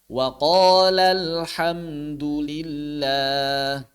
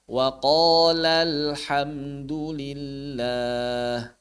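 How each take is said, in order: No difference in how they are said.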